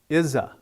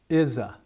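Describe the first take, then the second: First: The middle consonant is a buzzing z sound. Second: The middle consonant is a buzzing z sound.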